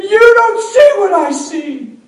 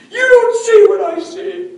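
First: High, loud and slow, furious son; angry shout. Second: High, loud, slow repeat; angry shout. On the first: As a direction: hurl it slowly at him. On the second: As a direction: throw it back at him just as hard. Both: Retold or imitated. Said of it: "He was mad".

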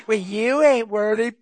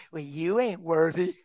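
First: Loud, slow, shouted taunt; mocking devil shout. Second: Sly devil whisper. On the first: Devil taunts the preacher with a loud, slow shout. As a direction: hurl the insult like a challenge. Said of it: "He said". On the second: Acted. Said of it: "devil slides up on my shoulder and say".

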